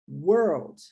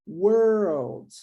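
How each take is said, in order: First: The word is said quickly and naturally. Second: The word is drawn out with exaggerated emphasis. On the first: "quando a gente fala isso mais naturalmente" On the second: "se eu for dar uma ênfase maior, só para questões de pronúncia"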